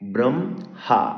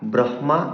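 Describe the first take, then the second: First: The h sound comes after the m sound. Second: The h sound comes before the m sound. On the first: The speaker calls it right. "বলতে হবে ব্রহ্মা" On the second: The speaker calls it wrong. "তো আর ব্রহ্মা বলা যাবে না"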